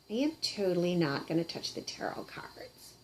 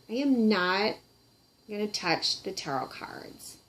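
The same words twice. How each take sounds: First: Secretive unvoiced whisper. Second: Said in the usual way. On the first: Puppet swears off tarot cards in a whisper. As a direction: breathe it as a secret, no voice.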